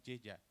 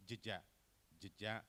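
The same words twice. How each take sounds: First: Jeja with a full e, jay-ja; as written. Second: Jeja with a schwa, juh-ja; epepet, reduced e. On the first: Presenter reads word as written, full e. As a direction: give jeja a clear first vowel. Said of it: "secara tulisannya, they pronounce jeja". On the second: Presenter shows how Indonesians pronounce it, reduced e. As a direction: squeeze the first vowel of jeja almost away. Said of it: "this is what we call by epepet". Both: Shown as a demonstration.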